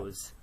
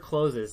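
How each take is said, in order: First: The word is said with one syllable. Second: The word is said with two syllables. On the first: The speaker calls it right. "It's always close" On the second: The speaker calls it wrong. "Never closes. Never say closes"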